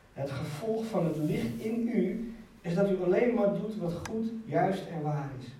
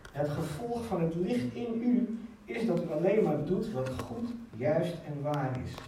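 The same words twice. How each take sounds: The two takes are said the same way.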